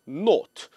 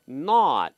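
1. 모음은 둥글고, 'o'에 가까워요. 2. 모음은 열려 있고 평평해요, 'ah'처럼요. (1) "영국 발음으로는" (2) "미국 발음으로는"

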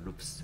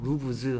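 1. 이 단어는 무성음 'fs' 소리로 끝납니다. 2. 이 단어는 유성음 'vz' 소리로 끝납니다. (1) "루프스라고 발음합니다" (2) "루브즈 하는 게 아니고요"

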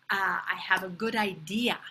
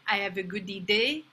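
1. Le dernier mot se prononce à l'anglaise. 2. Le dernier mot se prononce à la française. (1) "it is idea" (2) "It's not idée"

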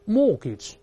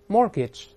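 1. 元音后面的 r 音不发音。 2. 元音后面的 r 音要发出来。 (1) "当然在英国是不加儿化音" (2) "再来一遍mortgage"

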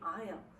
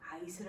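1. 이 단어는 s 소리 없이 발음해요. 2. 이 단어는 s 소리를 넣어 발음해요. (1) "S는 소리가 나지 않습니다" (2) "아이슬 아닌가?"

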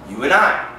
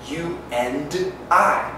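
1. 'and'의 D는 생략됩니다. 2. 'and'의 D는 발음됩니다. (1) "D 발음 없어요" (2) "하지 않고"

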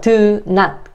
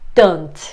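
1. 두 개의 온전한 단어로 발음해요. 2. 줄여서 하나의 축약된 단어로 발음해요.

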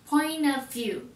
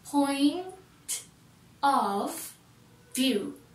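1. 'of'は'point'と切れ目なくつなげて言います。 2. 'of'を含め、各単語は別々に言います。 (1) "Of がもうくっついちゃってる" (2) "ではなくて"

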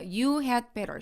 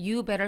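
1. "had"는 "better" 앞에서 발음합니다. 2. "had"는 "better" 앞에서 생략합니다. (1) "had 발음을 넣는 경우도 있고요" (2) "대부분은 생략해버려요"

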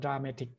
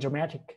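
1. คำนี้อ่านทีละตัวอักษรแบบไทย 2. คำนี้พูดด้วยเสียงและการเน้นเสียงแบบอังกฤษ (1) "ถ้าเราอ่านตามตัวนะถ้าเป็นเมื่อก่อนผมจะอ่านว่า" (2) "จะเป็น"

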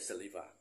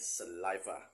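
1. สระกลางคำออกเสียงเหมือนตัว E ครับ 2. สระกลางคำออกเสียงเหมือนตัว I ครับ (1) "ไม่ใช่" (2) "หนักเสียงที่คำกลางคำเดิมแต่ให้ออกเสียงเป็นสระ, i"

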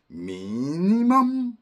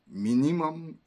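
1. 두 번째 음절을 최대한 높게 올려요. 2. 두 번째 음절을 살짝만 올려요. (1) "아주 비꼬듯 강하게 말할 때는 미니멈 하고 최대한 들어줍니다" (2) "일반적으로 미니멈 인풋"

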